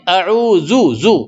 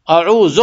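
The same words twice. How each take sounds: First: اعوذ drawn out with the zu ending; correct dhal. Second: اعوذ ending in a plain z; wrong z sound. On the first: Teacher showing correct dhal in اعوذ. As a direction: stretch اعوذ slowly, ending on zu. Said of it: "زال کو زو پڑھنے کا". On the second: Teacher imitating how many people say اعوذ. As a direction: say اعوذ the careless common way. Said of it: "اعوذ نہیں". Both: Shown as a demonstration.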